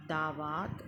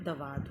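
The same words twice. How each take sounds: First: "दावात" as daa-vaat; wrong-form demo, long aa opening "दावात"; mispronounced long vowel. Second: Said in the usual way. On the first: Shown as a demonstration. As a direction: stretch the first vowel of "दावात" to aa. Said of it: "नहीं होता है". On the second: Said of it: "होता है".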